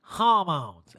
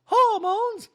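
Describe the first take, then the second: First: Deadpan mimicked answer, drawn out; Erica. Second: Very high, loud mock question; Dorit. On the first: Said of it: "And Erica goes". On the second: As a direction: squeal it back as a disbelieving echo. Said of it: "And Dorit goes".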